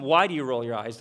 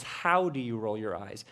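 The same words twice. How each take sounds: First: "Why" hit first, the question tipping up at the end; stress on why. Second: "How" stressed, then a soft, low rise through the rest. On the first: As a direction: lean into "Why". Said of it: "Much more interesting question isn't". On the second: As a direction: land on "How" quietly. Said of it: "The question is". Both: Shown as a demonstration.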